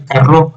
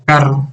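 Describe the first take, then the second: First: "carro" wrongly stressed on the last syllable, ca-RRÓ; misplaced final stress. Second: "carro" stressed correctly on CA, CA-rro; stress on first syllable. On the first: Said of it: "porque no podemos decir carro". ("carro" acentuado al final, como carró) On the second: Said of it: "sería". ("carro" con el acento en la primera sílaba) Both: Shown as a demonstration.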